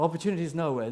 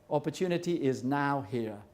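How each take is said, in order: First: The last part is said as one joined word. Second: The last part is split into two words. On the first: There is no opportunity anywhere. The speaker calls it wrong. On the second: Opportunity exists at this moment. The speaker calls it right.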